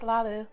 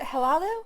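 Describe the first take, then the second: First: The name begins directly with an L sound. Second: The name begins with an audible H sound. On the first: "just Lalu" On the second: "pronounce the H"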